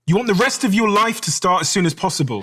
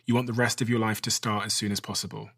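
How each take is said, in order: First: It is said in an angry tone. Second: It is said in a plain, neutral tone.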